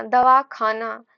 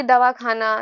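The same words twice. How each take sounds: First: "दवाखाना" split after "दवा", slowly; pause inside दवाखाना. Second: "दवाखाना" run together without a break; joined as one word. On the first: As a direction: break "दवाखाना" into two words, दवा and खाना. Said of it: "विराम लगने से एक अलग मीनिंग". ("दवा" के बाद विराम देकर "खाना") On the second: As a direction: say "दवाखाना" as a single unbroken word. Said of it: "कहाँ पे वो मिलके बन". ("दवाखाना" मिलाकर, बिना विराम के) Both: Shown as a demonstration.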